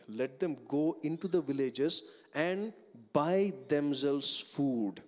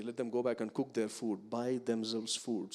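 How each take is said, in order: First: Buy held long with a raised voice; disciples' words with buy stressed. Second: Buy stressed, slowed at the end; disciples' words with buy stressed. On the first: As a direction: lean hard on buy, slowly. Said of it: "they make the statement". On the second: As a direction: lean on the word buy. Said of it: "They don't say". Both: Shown as a demonstration.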